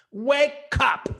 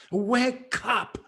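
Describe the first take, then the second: First: Raised, higher cry of wake up; a loud wake-up call; urgent call. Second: Said in the usual way. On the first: Real, not acted. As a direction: shout "Wake up!" at the viewers. Urging the audience to wake.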